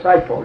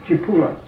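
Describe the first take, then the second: First: The name is said with two syllables. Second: The name is said with three syllables. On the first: This is the local anglicized name. "this here place down here is called Saipo" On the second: This is the original Italian name. "The right way to pronounce it is Cipolla"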